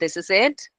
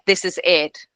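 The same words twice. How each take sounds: First: The pitch rises at the end, like a question. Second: The pitch falls low at the end. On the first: The speaker sounds unsure, as if asking. The speaker calls it wrong. "like a question mark" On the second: The speaker is sure of the statement. The speaker calls it right. "with confidence ... ended low"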